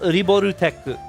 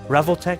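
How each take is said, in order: First: It is said Japanese-style as ri-bo-ru-tech. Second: It is said English-style with a v and an l. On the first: "this does say Ri Riboru Riborutech" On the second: "I keep pronouncing it Revoltech"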